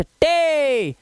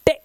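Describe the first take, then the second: First: टे held long and high; drawn-out, higher टे; long vowel sound. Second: टे cut very short; brief टे with no held vowel; short vowel sound. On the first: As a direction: stretch the vowel of टे. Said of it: "what is long vowel sound". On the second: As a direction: say टे in one quick burst. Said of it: "short vowel sounds". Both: Shown as a demonstration.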